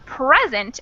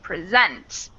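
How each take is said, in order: First: The stress is on the first syllable. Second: The stress is on the second syllable. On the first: "first syllable in the first sentence" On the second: "second syllable in the second sentence"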